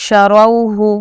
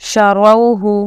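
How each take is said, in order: No difference in how they are said.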